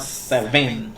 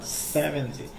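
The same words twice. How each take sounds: First: "seven" slowly, with the weight wrongly on VEN; wrong stress on VEN. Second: "seventy" with the weight on first-syllable SE; stress on SE. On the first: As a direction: lean on the second syllable of "seven". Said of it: "not seven". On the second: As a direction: lean on SE and let "venty" fall away. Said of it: "It's se, not seven, but seventy". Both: Shown as a demonstration.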